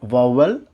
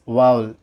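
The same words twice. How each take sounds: First: Vowel as VOW-val, two syllables; mispronounced vowel. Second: Vowel as VAUL, one syllable; correct vowel. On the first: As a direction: add a second V in vowel. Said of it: "not vowel". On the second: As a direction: glide vowel together like owl. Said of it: "it's vowel". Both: Shown as a demonstration.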